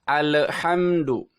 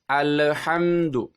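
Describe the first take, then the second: Both takes have the same delivery.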